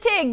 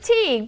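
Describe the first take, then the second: First: The name has a short 'i' vowel. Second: The name has a long 'ee' vowel. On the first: This is how people from nearby say it. "but I pronounce it Tig because I'm from a hop, skip, and a jump over it" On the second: This is how many people say it. "some of us pronounce it Teague"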